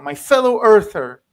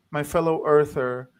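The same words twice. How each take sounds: First: A louder fellow earther said as an emphatic greeting. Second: Said in the usual way. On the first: Retold or imitated. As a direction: greet him warmly as a countryman, with emphasis. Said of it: "which is, like". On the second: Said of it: "he says".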